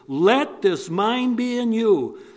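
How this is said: The first word 'Let' is strongly emphasized.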